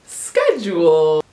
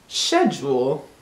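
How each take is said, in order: First: Schedule slowly, sk-edule; drawn-out schedule. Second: Schedule as shedule, slow; British schedule. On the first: Announcing the word schedule slowly. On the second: Offering the British schedule. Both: Shown as a demonstration. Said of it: "the fifth and final word".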